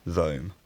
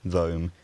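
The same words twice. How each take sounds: The two takes are said the same way.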